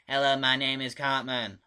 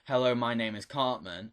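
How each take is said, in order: First: It is said in a high, helium-like voice. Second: It is said in a natural voice.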